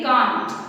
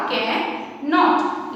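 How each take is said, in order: First: 'can't' with the contracted sound; can't as one syllable. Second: 'cannot' slowly, both parts sounded; careful model of the full form cannot; cannot pronounced in full. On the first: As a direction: say can't as a single beat. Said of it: "यहाँ पर इसका pronunciation change हो जाएगा". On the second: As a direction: stretch cannot into can and not. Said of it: "इसका correct pronunciation रहेगा". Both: Shown as a demonstration.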